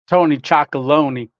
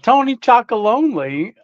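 First: The last part sounds like 'lony', rhyming with Tony. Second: The last part sounds like the word 'lonely'. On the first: The speaker calls it wrong. "I always said chocolony. Not lonely" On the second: The speaker calls it right.

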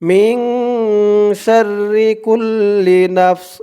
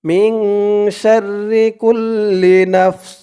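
No difference in how they are said.

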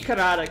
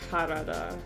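First: The name is said in an anglicized way. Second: The name is said in its native way. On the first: "Maybe Karada could be like the anglicized version of it" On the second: "that just sounds way more natural for me to say than"

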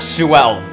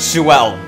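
First: The name is split into two syllables. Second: The name is split into two syllables.

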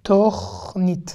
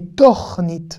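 First: The first vowel is an o sound. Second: The first vowel is an o sound.

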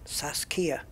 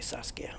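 First: The stress is on the second syllable. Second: The stress is on the first syllable. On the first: This may be how native speakers say it. "Do they put emphasis on the second syllable?" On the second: This is how the speaker would say it. "I would I would say Saskia"

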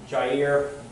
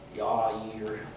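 First: The name is given an English pronunciation. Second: The name is given a Hebrew pronunciation. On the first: "we'll say Jair" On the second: "a good Hebrew would say Yair"

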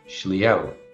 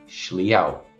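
No difference in how they are said.

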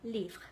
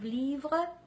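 First: The ending of the word is cut off. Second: The ending of the word is fully pronounced. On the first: The speaker calls it wrong. "they are cutting the ending of the words" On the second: The speaker calls it right. "Instead of livre"

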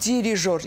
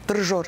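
First: The vowel after the first d is pronounced. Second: The vowel after the first d is dropped. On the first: The speaker calls it right. "bəs bu d-dan sonra i-hanı" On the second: The speaker calls it wrong. "d-r saitsiz"

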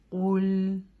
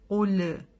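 First: The word ends cleanly on the L sound. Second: An extra short vowel follows the final L. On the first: The speaker calls it right. "Не нужно отрывать так резко язык" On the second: The speaker calls it wrong. "часто читает уле"

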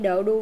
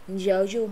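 First: The syllable starts with a plain d sound. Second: The syllable starts with a j-like sound. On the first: The speaker calls it wrong. "không phải đỡ đu nha" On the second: The speaker calls it right. "nhấn chữ k và chữ chu này là dở du"

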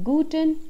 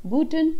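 Both takes have the same delivery.

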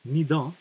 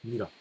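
First: The middle consonant is a d sound. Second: The middle consonant is an r sound. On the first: This is the standard form. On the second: This is the non-standard spoken form.

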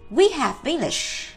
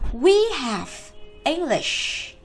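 First: The words are said quickly and run together. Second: Each word is said slowly and separately. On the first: "Còn nếu đọc nhanh chúng ta sẽ đọc này" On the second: "Đây là cô đọc từng từ một"

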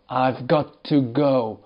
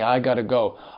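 First: Each word is said fully and separately. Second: The words are said quickly and run together.

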